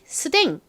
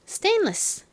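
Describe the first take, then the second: First: It is clipped to two syllables, 'seudaeng'. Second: It is said in full as 'stainless'. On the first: The speaker calls it wrong. "스댕 하지 마시고" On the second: The speaker calls it right. "stainless 이렇게 발음해 주세요"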